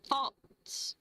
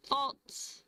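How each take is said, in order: Both takes have the same delivery.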